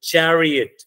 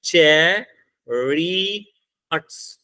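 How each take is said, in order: First: "चैरियट" दो हिस्सों में, चै और रियट; दो सिलेबल में. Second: "चैरियट्स" very slowly in three separate beats, चै, रि, यट्स; तीन सिलेबल में. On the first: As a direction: say "चैरियट" as two beats, चै then a quick joined रियट. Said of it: "चैरियट्स में दो syllable हैं, अगर आप बोल के देख लो". ("चैरियट" को दो सिलेबल में बोलो, "रियट" एक साथ) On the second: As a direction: break "चैरियट्स" into three drawn-out syllables. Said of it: "तीन हैं इसके अंदर, दो नहीं है". ("चैरियट्स" को तीन हिस्सों में रुक-रुक कर बोलो) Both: Shown as a demonstration.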